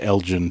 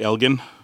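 First: The name is said the American way. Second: The name is said the Ontario way. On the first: This is a later, altered pronunciation. The speaker calls it wrong. "half of them have been corrupted over to Elgin too" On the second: This is the original pronunciation. The speaker calls it right. "they say Elgin"

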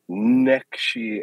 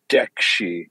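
First: The word begins with an N sound. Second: The word begins with a D sound. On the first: "an N" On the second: "or a D"

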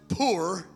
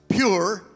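First: The word sounds like 'poor', without a glide. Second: The word sounds like 'pure', with a 'y' glide. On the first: The speaker calls it right. "but it is actually pronounced poor" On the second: The speaker calls it wrong. "It looks like it would be pronounced pure"

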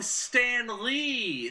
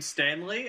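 First: It is said as two separate names. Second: It is said as one single name.

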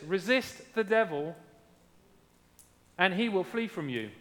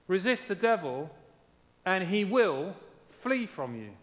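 First: The sentence is read without a marked stressed word. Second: The word "will" carries strong emphasis. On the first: "James 4:7 says this" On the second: "Or I could emphasize it slightly differently and read it this way"

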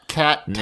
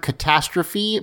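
First: The first syllable is stressed like 'cat'. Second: The word is said with its usual stress. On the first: It is a pun on a character's name. The speaker calls it right. "it's clearly supposed to be catastrophe" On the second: It is the ordinary word. The speaker calls it wrong. "We keep pronouncing the word correctly"

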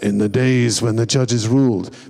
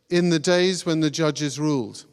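First: It is said in a deep, dramatic trailer voice. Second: It is said in an ordinary reading voice.

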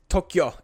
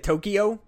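First: It is said with two syllables. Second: It is said with three syllables. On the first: "it's Tokyo" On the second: "because we say Tokyo"

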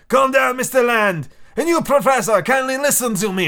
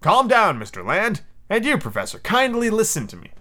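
First: It is spoken in a put-on French accent. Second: It is spoken in the reader's plain accent.

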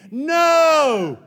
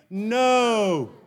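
First: It is said forcefully, with conviction. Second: It is said casually, without force.

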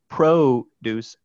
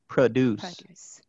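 First: The first vowel is a full 'o' sound. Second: The first vowel is a reduced schwa sound. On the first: "an alternation between an O and a schwa" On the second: "an alternation between an O and a schwa"

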